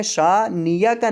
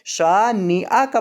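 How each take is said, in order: First: شانیہ کا said with a ya glide in place of the hamza; wrong ya sound. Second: شانیہ کا with a clear hamza stop in place of ya. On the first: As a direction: demo the common error, ya in شانیہ کا. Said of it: "اکثر لوگ اس کو پڑھ دیتے ہیں شانیہ کا". (شانیہ کا میں ہمزہ کی جگہ یا پڑھیں) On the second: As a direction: correct it, a glottal hamza in شانیہ کا. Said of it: "حمزہ کی بجائے یا پڑھ دیتے ہیں". (شانیہ کا میں ہمزہ صاف ادا کریں) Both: Shown as a demonstration.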